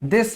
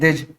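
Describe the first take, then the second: First: The word ends with a hissing s sound. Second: The word ends with a buzzing z sound. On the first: The speaker calls it right. "ये क्या है, दिस है" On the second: The speaker calls it wrong. "बहुत सारे बच्चे इसको गलत पढ़ते हैं"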